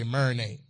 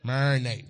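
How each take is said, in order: First: Said in the usual way. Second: "Marinate" said as "mer-nate", the first syllable clipped short; his own way of saying it. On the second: Shown as a demonstration. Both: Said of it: "Y'all say marinate".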